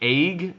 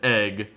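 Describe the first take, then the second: First: The vowel sounds like 'ay'. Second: The vowel sounds like 'eh'. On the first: The speaker calls it wrong. "not like E Y G G" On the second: The speaker calls it right. "It's E G G"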